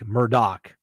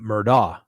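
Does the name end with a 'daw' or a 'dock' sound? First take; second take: dock; daw. First: The name ends with a clipped 'dock' sound. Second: The name ends with an open 'daw' sound. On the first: The speaker calls it right. "it's pronounced with a doc" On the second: The speaker calls it wrong. "I pronounced it Murdaugh because that's the way it's spelled"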